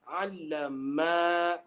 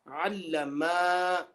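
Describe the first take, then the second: First: The final vowel is drawn out long. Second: The final vowel is drawn out long.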